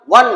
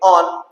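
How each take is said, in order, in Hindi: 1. यह संख्या 'one' की तरह बोला जाता है। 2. यह शब्द 'on' की तरह बोला जाता है। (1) "वन नहीं" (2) "इसको बोलेंगे ऑन"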